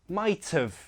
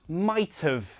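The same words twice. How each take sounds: No difference in how they are said.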